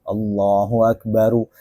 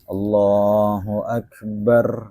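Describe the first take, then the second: First: The last word ends with an added u vowel. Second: The last word ends on a bare r. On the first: "dibaca apa? Rofa" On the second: "takbir itu sukun roknya"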